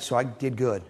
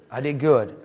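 First: Said in the usual way. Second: "good" said louder and falling; stress on good. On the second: Shown as a demonstration. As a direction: punch "good" as if proud.

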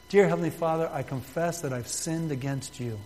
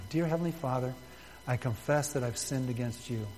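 First: Reads the prayer line aloud for the room to follow; prayer spoken out to be repeated; leading a prayer. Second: Softer, hushed repeat of the prayer; gentle, quieter personal prayer; softer inner prayer. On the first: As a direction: model the words clearly for the congregation. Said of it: "And simply say this". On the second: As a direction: say it as if praying privately in the mind. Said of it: "Say that in your mind right now". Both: Shown as a demonstration.

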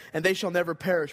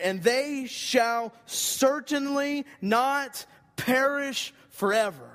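First: Said in the usual way. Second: "and they shall certainly not perish forever" slow and much higher, stretched out; emphatic reading. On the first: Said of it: "E S V decided to translate it". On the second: Shown as a demonstration. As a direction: drive the promise home slowly, pitch lifted. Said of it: "It's the feel of this text".

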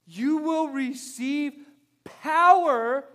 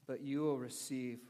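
First: Slow, high "You will receive", then a loud punched "power"; emphatic reading. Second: Said in the usual way. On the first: Shown as a demonstration. Pastor reading the promise to church, emphatic stress on "power". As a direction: stretch the verse out and hit "power" hard. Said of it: "Read it with that emphasis when you read this word power". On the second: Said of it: "Read it with that emphasis".

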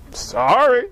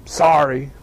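First: Mock kid trying again, barely more sincere; a second grudging try at meaning it; a kid told to mean it, still half-hearted; still half-hearted sorry. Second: Put-on low mumbled sulky apology, a kid forced to say it; a kid muttering sorry to little Joey because he has to; grudging kid sorry. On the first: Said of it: "go say it like you mean it". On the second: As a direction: drag it out like a sulking child. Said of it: "they walk back over like this".

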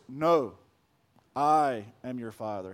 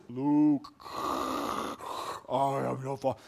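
First: Very low, soft Vader voice; deep and slow, the real line; Darth Vader. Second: Lightly deepened Vader misquote; a low, quiet hint of Vader; Darth Vader. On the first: Retold or imitated. Preacher giving Vader's actual line, deep and low. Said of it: "Darth Vader just says". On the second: Preacher repeating the misremembered line, low and quiet. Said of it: "He actually never says".

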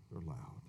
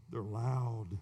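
First: Much lower and softer repeat; quiet echo. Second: Said in the usual way. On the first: Shown as a demonstration. Preacher echoing his warning, low and hushed. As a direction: drop it to a murmur the second time.

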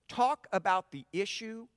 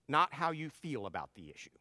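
First: "Talk" hit and lifted, set against feeling; leaning into "Talk" to steer listeners toward the issue; stress on talk. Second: "not" stressed, rest of the line dropping softer; pressing "not" to rule out feelings. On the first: Pastor stressing "Talk" as he contrasts issue with feelings. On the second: Pastor stressing "not" to dismiss how people feel about the issue. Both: Shown as a demonstration. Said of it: "contrasting talk vs feel".

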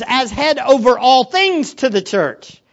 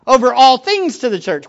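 First: Slow, weighty quotation of the verse; reading the phrase slowly. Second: All stressed in the repeat. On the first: To the congregation, slow emphatic reading of the verse. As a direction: lean on each word of the verse. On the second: Repeating the phrase to the church, weight on all. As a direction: lean hard on the word all. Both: Shown as a demonstration. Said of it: "notice that little phrase".

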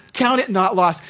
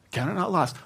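First: "Count it not lost" rung out louder and higher; proclaiming God's words. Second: "Count it not lost" repeated softly, pitch near normal; quiet echo of God's words. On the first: Retold or imitated. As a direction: declare it like a divine command. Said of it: "He said that phrase to me". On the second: Real, not acted. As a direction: savour the promise gently. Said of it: "I will never forget those words".

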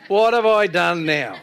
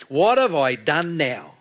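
First: Higher, louder, slow mock-aggrieved wail; hammed-up younger brother. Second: Louder, slow, drawn-out aggrieved complaint; younger brother's protest. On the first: Preacher replaying David's retort for laughs, mock-aggrieved. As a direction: exaggerate the little brother's complaint, half laughing. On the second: Acted. David answering his scolding older brother, aggrieved. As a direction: protest like a put-upon little brother. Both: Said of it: "that's the words of a younger brother".

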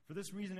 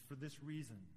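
First: Higher and louder, pressing "reason"; emphatic repeat. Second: Said in the usual way. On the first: Shown as a demonstration.

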